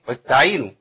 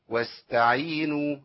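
First: The s sound is almost lost. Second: The s sound flows for a natural length. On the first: The speaker calls it wrong. "تضيع مني خالص ما تنفعش" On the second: The speaker calls it right. "ايوه هو ده زمانها الطبيعي"

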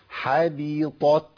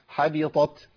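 First: The word is said slowly. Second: The word is said quickly. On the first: "أولها تاني بالبطيء" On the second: "طب بسرعة بقى"

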